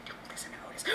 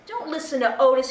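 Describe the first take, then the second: First: Much softer, unvoiced whisper; stage whisper. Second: Said in the usual way. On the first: Librarian whispers to the children behind the puppet's back, soft whisper. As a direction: let the kids in on a secret.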